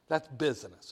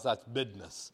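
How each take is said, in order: First: It is said in a plain, neutral accent. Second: It is said in a Southern accent, like "bidness".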